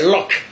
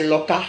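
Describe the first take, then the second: First: "lock" in one syllable; English pronunciation. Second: "loca" with an added final a; Godié pronunciation. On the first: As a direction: end "lock" on the k. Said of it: "Chez les Anglais". (« lock » à l'anglaise, une seule syllabe) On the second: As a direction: open it out as lo-ka. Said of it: "Chez les Gaudiers". (« loca » à la godié, avec un a final) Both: Shown as a demonstration.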